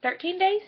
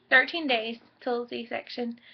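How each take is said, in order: First: "days" lifted high as an unsure question; questioning rise. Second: "Thirteen" stressed, said slowly and settled; firm statement. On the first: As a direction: check the count, asking yourself. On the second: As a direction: state the count, slow and sure. Confirms the count. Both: Real, not acted.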